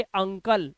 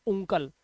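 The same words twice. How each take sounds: First: अंकल said with an uh; right reading. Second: उंकल said with an oo, and softer; wrong reading. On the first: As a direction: clear correct अंकल. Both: Shown as a demonstration. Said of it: "ना कि उंकल".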